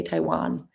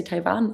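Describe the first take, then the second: First: Taiwan with a rounded English W; English pronunciation. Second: Taiwan with a German V sound; German pronunciation. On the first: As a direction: say "Taiwan" as "Tai-wahn", lips rounded on the w. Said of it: "in English you ta-, say Taiwan". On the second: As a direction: say "Taiwan" as "Tai-van". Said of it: "in German you say Taiwan". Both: Shown as a demonstration.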